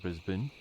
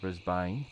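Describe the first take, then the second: First: The name is said the usual local way. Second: The name is sounded out as it is spelled. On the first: "but we pronounce it Brisbane" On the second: "but it's spelt Brisbane"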